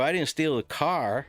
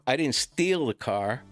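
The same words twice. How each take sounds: First: The stress is on "car". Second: The stress is on "steal".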